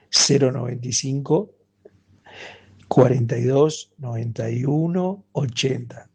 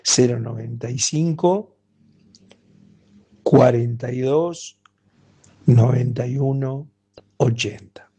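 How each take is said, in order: First: The number is said at a quick pace. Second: The number is said slowly.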